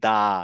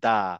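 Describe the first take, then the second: No difference in how they are said.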